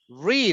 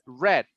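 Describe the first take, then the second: First: The vowel is long, like 'reed'. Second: The vowel is short, like 'red'. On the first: It is the present tense. "read is in present" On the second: It is the past tense. "but pronunciation is red"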